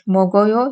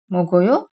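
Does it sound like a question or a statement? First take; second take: statement; question. First: It has flat statement intonation. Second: It has emphasized question intonation. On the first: I eat. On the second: Do you eat? "yiyor musun"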